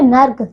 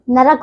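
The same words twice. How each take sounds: First: नर्क said as "nark"; wrong joined cluster. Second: नरक said as "narak"; vowel between r and k in नरक; correct two syllables. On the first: Teacher showing pupils the error, नर्क as one syllable. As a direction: run r and k together in नर्क. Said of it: "नर्क नहीं". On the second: Teacher correcting pupils, नरक as two syllables. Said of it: "नरक होता है". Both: Shown as a demonstration.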